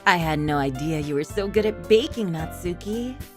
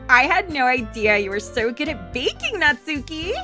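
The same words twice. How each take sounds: First: It is said in an evil voice. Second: It is said in a valley girl voice.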